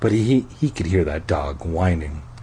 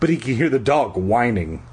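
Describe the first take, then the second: First: It is read in a sensual, seductive voice. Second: It is read in a plain, ordinary voice.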